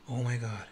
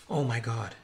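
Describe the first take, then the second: No difference in how they are said.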